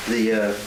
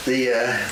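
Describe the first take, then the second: No difference in how they are said.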